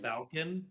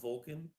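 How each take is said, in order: First: The first syllable sounds like 'val'. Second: The first syllable sounds like 'vul'. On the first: The speaker calls it right. "Valken, not Vulcan" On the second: The speaker calls it wrong. "not Vulcan"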